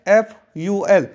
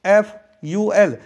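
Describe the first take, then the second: No difference in how they are said.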